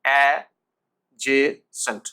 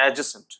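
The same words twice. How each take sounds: First: Very slow, loud a... je... sent for adjacent; repeat-after-me adjacent, a-je-sent; syllable-by-syllable model. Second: Adjacent run together as a-je-sent; quick whole-word adjacent, d silent; joined-up pronunciation. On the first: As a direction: break adjacent into three, no d. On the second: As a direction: say adjacent in one go with no d. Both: Shown as a demonstration. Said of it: "উচ্চারণ করুন আমার সাথে".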